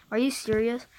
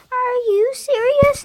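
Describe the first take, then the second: First: Said in the usual way. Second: Much higher and louder shouted question. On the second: Acted. State kid shrieking at the others in disbelief. Repeated line, plain vs shouted.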